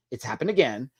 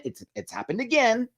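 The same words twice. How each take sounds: First: Said in the usual way. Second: "It's happened again" in high disbelief; exasperated disbelief. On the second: Real, not acted. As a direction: pitch up in disbelief.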